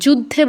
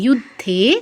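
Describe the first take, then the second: First: The final vowel is short. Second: The final vowel is long. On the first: The speaker calls it wrong. "যুদ্ধে বলবো না কিন্তু" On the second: The speaker calls it right. "ধেতে দীর্ঘ হবে"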